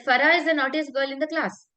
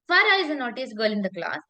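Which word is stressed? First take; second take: none; Farah. First: No word is given special stress. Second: The word Farah is strongly stressed. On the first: "I have not used any emphasis right now" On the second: "if I emphasize on Farah"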